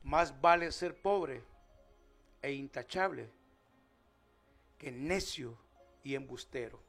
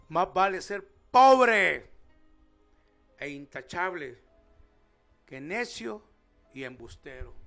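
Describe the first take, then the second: First: It is read plainly, without much expression. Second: It is said with strong, exclamatory expression.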